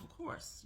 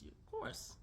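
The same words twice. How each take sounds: First: Whispered, dry and sarcastic; under-the-breath of course. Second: Whispered in a much higher squeak; a squeaky mocking whisper; sarcastic high breathy echo. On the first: Acted. Sarcastic aside about being wife. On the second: Repeated sarcastic aside.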